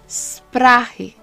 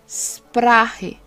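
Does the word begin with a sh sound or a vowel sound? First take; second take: sh sound; sh sound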